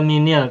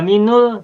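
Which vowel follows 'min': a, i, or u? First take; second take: i; u. First: The linking vowel after min is i. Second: The linking vowel after min is u. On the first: "tidak minil" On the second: "Tidak minul"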